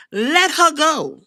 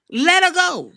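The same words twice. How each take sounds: First: Drawn-out and slow; slow dismissive. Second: Said in the usual way. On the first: Shown as a demonstration. Dismissing her slowly, unbothered. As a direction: let the words hang, slow. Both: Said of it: "repeated dismissal".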